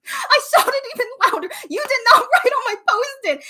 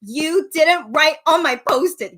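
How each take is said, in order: First: High and loud, laughing through it; laughing shout. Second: Slow, loud call across the room; shouting. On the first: Fan yelling at idol again, laughing. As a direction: giggle while yelling the line. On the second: Fan shouting at idol from her seat. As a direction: call out to him from the seats. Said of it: "So I shouted to him in English". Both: Retold or imitated.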